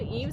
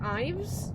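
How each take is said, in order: First: The word begins with an 'ee' vowel. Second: The word begins with an 'eye' vowel. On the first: "Is it Eves?" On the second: "Is it Ives? Y is often an I sound"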